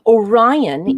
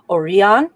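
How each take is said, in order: First: The name is pronounced the English way. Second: The name is pronounced the Greek way. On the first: "Orion is an anglicization" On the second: "Greek Orion"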